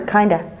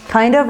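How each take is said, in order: First: The words blend into one reduced word. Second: Both words are said fully and separately. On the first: "they say kinda"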